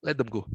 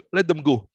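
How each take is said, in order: First: "let them go" again, much softer and lower; soft repeat. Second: Said in the usual way. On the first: Real, not acted. Monk softly echoing his advice to mourners, hushed. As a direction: let it fall away gently, almost to yourself.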